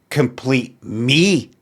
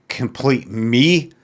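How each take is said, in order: The two takes are said the same way.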